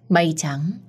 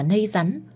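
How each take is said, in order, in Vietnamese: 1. Các từ được phát âm rõ ràng và đầy đủ. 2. Những âm đầu bị nói líu nhíu như cách trẻ mới biết nói. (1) "không rõ vành vạch như vậy" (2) "đại loại là"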